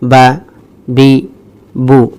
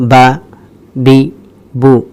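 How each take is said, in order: The two takes are said the same way.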